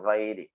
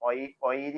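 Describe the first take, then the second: First: The word begins with a throaty gh consonant. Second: The word begins with a plain vowel sound. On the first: The speaker calls it right. "വൈരിയാണ്" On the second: The speaker calls it wrong. "ഒയിരി ആവരുത് കേട്ടോ"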